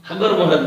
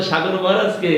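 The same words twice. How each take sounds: First: সাগর said as হাগর, s sound swapped for h; imitating a boy's h for s. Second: Said in the usual way. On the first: Teacher mimics a Patna boy who can't say s, imitating. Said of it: "হ উচ্চারণ করে". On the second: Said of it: "স উচ্চারণ করতে পারে না, হ উচ্চারণ করে".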